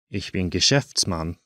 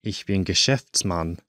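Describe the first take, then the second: No difference in how they are said.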